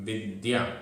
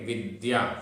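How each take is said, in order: The two takes are said the same way.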